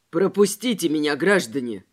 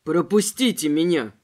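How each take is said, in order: First: Lower, firm exclamation hiding fear; exclaimed. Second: Lower, louder begging plea; pleading. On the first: Robespierre facing two tramps, forced firm exclamation. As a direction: sound braver than you feel. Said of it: "воскликнул Робеспьер, стараясь не показывать свой страх". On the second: Robespierre begging the armed robber, pleading. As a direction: beg them to let you pass. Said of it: "взмолился Робеспьер". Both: A narrator's reading.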